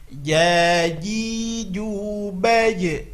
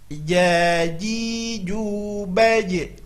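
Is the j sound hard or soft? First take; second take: soft; soft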